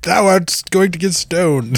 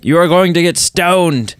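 First: Lightly hammed archaic "Thou art"; a hint of a pompous preacher; mock old-timey speech. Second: Mock solemn "stoned", a bit higher; lightly imitated archaic threat; retold old-timey line. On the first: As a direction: play a biblical judge pronouncing doom. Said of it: "you tried to use an old-timey saying". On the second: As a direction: hand down the sentence with mock gravity. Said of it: "and you were like".

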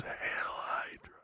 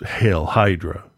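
First: Weak, slow raspy whisper. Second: Said in the usual way. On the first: Pretend. Man promising his wife a joke after sedation, raspy whisper. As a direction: rasp it out very softly, barely voiced. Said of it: "in that raspy voice".

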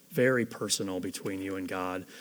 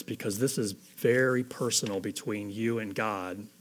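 First: "very personal" repeated lower and much softer, almost hushed. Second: Said in the usual way. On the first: Shown as a demonstration. Preacher echoing his own line to the congregation, hushed and lower. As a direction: drop your voice and say "very personal" again gently.

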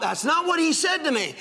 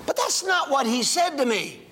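First: Higher and pressed, leaning on what; preacher repeating the line to make them hear it; emphatic repeat. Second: Said in the usual way. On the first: Shown as a demonstration. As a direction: drive the point home the second time. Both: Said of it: "Do you hear, Bob?".

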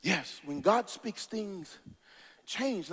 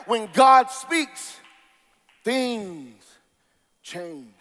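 First: Soft, lower and slow; quiet refrain. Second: Shout to hush. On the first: Preacher repeating the refrain softly to the congregation. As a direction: say it hushed and low, letting it sink in. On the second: Preacher shouting the refrain, then letting it fade. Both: Real, not acted.

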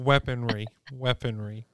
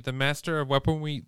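First: "weaponry" said with a clear r; careful r in "weaponry"; says r properly. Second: "weaponry" said as "weaponwy", w for r; "weaponry" with a w sound for the r; says w for r. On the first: Shown as a demonstration. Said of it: "I can't say Shang-Chi and also weaponry". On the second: Real, not acted. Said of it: "four years old? Can't pronounce your R's?".

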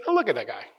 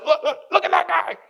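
First: Easy, understated reaction to someone's failing; tolerant sigh of words. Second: Much higher mock-scandalized voice; mocking pointing. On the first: Acted. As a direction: say it indulgently, without the mock scandal. Jesus's tolerant reaction, acted contrast. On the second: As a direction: point out the sinner in a high, put-on voice. Mocking someone else's sin, acted.

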